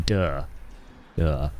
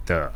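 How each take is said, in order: First: "Duh" with a hard English d; North American pronunciation. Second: "Duh" with tongue on the teeth; Indian dental sound. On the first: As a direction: say "Duh" as Americans and Canadians would. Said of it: "So they'll say". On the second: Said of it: "duh sound. It's a very Indian thing". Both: Shown as a demonstration.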